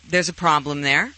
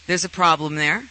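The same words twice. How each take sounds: The two takes are said the same way.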